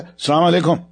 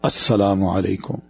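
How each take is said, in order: First: The greeting is said in a harsh, cold tone. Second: The greeting is said in a soft, warm tone. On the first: The greeting is given but without goodwill. The speaker calls it wrong. "لہجے نے بتا دیا کہ یہ اسلوب ٹھیک نہیں ہے" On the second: The other person feels welcomed and respected. The speaker calls it right. "ذرا مسکرا کے یہ کہہ دیا السلام علیکم نرم لہجے میں"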